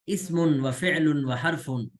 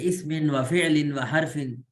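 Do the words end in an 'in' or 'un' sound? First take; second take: un; in. First: Each word ends with an 'un' sound. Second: Each word ends with an 'in' sound. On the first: The three kinds are named as a list. "अगर हम इसमुन व फ़िअलुन व हरफुन पढ़ रहे हैं तो ये ज्यादा बेहतर है" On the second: The three kinds follow on from the sentence before. "ये भी ठीक है"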